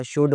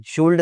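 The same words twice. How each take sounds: First: "शुड" with no L; silent L. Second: "शुल्ड" with an L before the D; L sounded. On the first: Teacher correcting learners, L left silent. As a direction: drop the L, "शुड". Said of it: "शुड होता है". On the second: Teacher showing what is wrong, L sounded. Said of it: "शुल्ड नहीं होता". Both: Shown as a demonstration.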